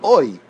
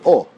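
First: The vowel is said as 'oi'. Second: The vowel is said as plain 'o'. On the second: This is the Israeli pronunciation. "Israelis don't say o, they say o"

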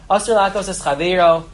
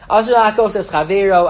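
First: It is read in a flat monotone. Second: It is read with varied, expressive intonation. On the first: The speaker calls it wrong. "I read that without any inflection" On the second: The speaker calls it right. "one more time with the proper inflection"

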